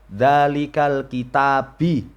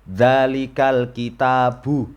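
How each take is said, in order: First: The last word ends with an 'i' vowel. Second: The last word ends with an 'u' vowel. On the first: The speaker calls it wrong. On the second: The speaker calls it right.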